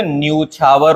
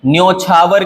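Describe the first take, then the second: First: न्यूछावर with long oo, nyoo-chhaa-var; correct pronunciation. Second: न्योछावर with o, nyo-chhaa-var; wrong pronunciation. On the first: Teacher correcting it, न्यूछावर said with nyoo. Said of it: "होता है". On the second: Teacher showing the mistake, न्योछावर said with nyo. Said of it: "की जगह". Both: Shown as a demonstration.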